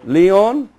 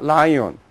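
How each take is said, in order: First: Lyon said lee-ON; French-style Lyon. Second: Lyon said LIE-on, like lion; mispronounced Lyon. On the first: Teacher showing class the French city's name, correct pronunciation. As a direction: say Lyon as "lee-on", two clear parts. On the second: Teacher warning class off a misreading, wrong pronunciation. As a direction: say Lyon as the English word "lion" plus "on". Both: Shown as a demonstration. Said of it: "not Lyon".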